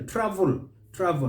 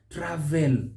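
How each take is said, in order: First: "Travel" as TRAV-ul; silent E. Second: "travel" as tra-VELL; wrong full EL. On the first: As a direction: swallow the e in "Travel". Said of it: "So we say". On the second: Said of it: "not travel". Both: Shown as a demonstration.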